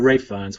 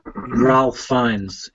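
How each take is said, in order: First: The first name is pronounced Ray, without an L. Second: The first name is pronounced Ralph, with an L. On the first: The speaker calls it right. "it's pronounced Ray" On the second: The speaker calls it wrong. "I always call him Ralph"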